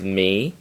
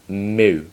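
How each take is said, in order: First: The vowel is a high front 'ee' sound. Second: The vowel is a rounded 'oo' sound. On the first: This is how the letter is named in modern Greek. The speaker calls it wrong. "Modern pronunciation is me, but do not pronounce it me" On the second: This is the traditional name for the letter. The speaker calls it right. "pronounce it mu"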